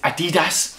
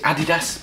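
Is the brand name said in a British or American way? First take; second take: American; British. First: The name is said with an American pronunciation. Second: The name is said with an English pronunciation. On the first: "over there it's pronounced it Adidas" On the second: "I'm being English, I'll pronounce it Adidas"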